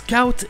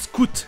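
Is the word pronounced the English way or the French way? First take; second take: English; French. First: The word is pronounced the English way. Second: The word is pronounced the French way. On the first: The speaker calls it right. "Ça se prononce Scout" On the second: The speaker calls it wrong. "et pas Scout, comme on le fait en français dans Boy Scout"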